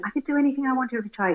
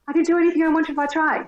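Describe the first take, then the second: First: It is said quietly. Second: It is said loudly. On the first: "looking up at him, I went" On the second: "say it louder. I was like"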